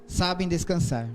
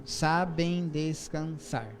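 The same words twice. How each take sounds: First: Haiku reading. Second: "sabem descansar" stretched slowly syllable by syllable; slow counted reading of the last verse; syllable counting. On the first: Reads haiku aloud. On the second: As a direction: scan "sabem descansar" beat by beat. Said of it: "E o último". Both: Shown as a demonstration.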